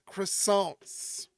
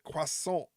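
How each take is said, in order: First: Croissant is said with an American pronunciation. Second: Croissant is said with a French pronunciation. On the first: The speaker calls it wrong. "We're not supposed to pronounce it" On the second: The speaker calls it right. "We're supposed to pronounce it"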